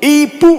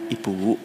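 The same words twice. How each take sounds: First: It is called out loudly and harshly. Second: It is said softly and gently.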